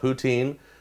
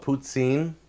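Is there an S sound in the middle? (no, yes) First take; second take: no; yes. First: There is no S sound in the middle. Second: There is an S sound in the middle.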